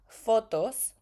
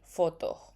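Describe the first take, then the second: First: The final S is clearly pronounced. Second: The final S is dropped, Caribbean style.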